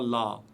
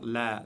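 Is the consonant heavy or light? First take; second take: heavy; light. First: The consonant is heavy and deep. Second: The consonant is light and thin. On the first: The speaker calls it wrong. "et non pas la" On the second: The speaker calls it right. "prononcé légèrement"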